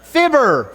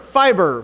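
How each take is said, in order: First: Fibber with short i, like fib; correct fibber. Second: Fiber with long i, like fibre; wrong fiber. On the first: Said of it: "Fiber McGee and". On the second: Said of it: "I said fiber". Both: Shown as a demonstration.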